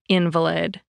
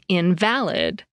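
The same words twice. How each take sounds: First: The stress falls on the first syllable. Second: The stress falls on the second syllable. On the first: "when you stress the first syllable" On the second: It means without foundation in fact or truth. "when you stress the second syllable"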